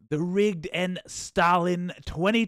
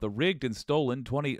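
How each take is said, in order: First: It is read in a put-on dumb voice. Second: It is read in a normal voice.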